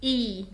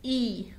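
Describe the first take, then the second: First: The letter name is said the German way. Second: The same.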